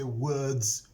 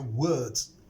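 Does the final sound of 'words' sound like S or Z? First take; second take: S; Z. First: The ending is a hissing S sound. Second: The ending is a buzzing Z sound. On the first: The speaker calls it wrong. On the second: The speaker calls it right.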